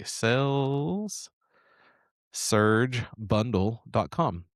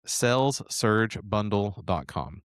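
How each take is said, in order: First: Slow. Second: Said in the usual way. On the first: Shown as a demonstration. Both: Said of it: "That's S A L E S".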